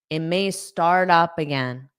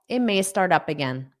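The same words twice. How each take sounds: First: It is said at a slower, careful pace. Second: It is said quickly, with sounds run together.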